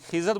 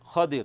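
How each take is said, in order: First: The middle consonant is a z sound. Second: The middle consonant is a d sound. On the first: The speaker calls it wrong. "ये pronunciation जो है सही नहीं है" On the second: The speaker calls it right. "खा के ऊपर ज़बर और द्वाद के नीचे ज़ेर"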